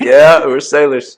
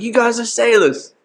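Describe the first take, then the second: First: Said in the usual way. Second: Very high mock London accent; put-on London accent. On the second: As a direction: pitch it way up as an imitated Londoner. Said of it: "You gotta hit him with the accent".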